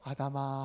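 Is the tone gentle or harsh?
gentle. It is said in a gentle voice.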